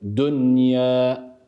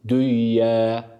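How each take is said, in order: First: The n is pronounced clearly before the y. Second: The n merges into the following y sound. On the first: The speaker calls it right. "Nun'un sakinliğini, sükunluğunu açıkça ifade ederek okuyoruz" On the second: The speaker calls it wrong. "burayı şöyle okuyamayız. Düye, düye şeklinde bir idgam yapamıyoruz"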